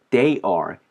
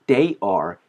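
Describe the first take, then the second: No difference in how they are said.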